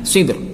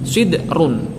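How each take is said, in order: First: The word ends on a thin, light r. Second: The r is thick and heavy before -un. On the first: "Selama dibaca waqaf maka tipis" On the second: "Ro-nya harus dibaca tebal"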